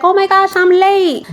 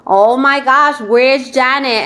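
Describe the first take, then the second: First: High, breathless oh my gosh; flustered arrival. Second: Said in the usual way. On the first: Retold or imitated. Host imitating Janet arriving late, high and flustered. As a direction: gasp out that you're late.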